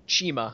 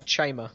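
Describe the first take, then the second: First: Chima said as CHEE-ma; alternative pronunciation. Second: Chima said as CHAI-ma; first pronunciation. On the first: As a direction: say Chima with an "ee" vowel. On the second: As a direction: say Chima with a long "eye" vowel. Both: Shown as a demonstration. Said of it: "however it's pronounced".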